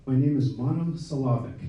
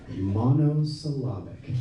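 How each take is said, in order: First: Said in the usual way. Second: Monosyllabic said slowly, each syllable relished; savoring the word. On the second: Shown as a demonstration. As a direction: roll Monosyllabic out slowly like a treat. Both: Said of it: "That's kinda fun to say".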